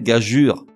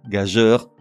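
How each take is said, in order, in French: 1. Le mot se termine par un son 'ur'. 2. Le mot se termine par un son 'eur'. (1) "mais gageure, même si ça te vrille les oreilles" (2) "Gageur ne se prononce pas contre toute attente gageur, soit comme le mot s'écrit"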